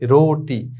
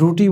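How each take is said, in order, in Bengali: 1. প্রথম স্বরধ্বনিটি একটি o ধ্বনি। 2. প্রথম স্বরধ্বনিটি একটি u ধ্বনি।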